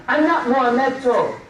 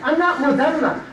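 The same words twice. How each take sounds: First: "Muhammedto" said as moo-HAM-med-toe, with an added -to ending; "Muhammedto" as a garbled foreign name, moo-ham-med-TOE; mangled name. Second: Said in the usual way. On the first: Shown as a demonstration. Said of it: "Dante's Muhammedto". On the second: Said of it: "however they think they can pronounce that name".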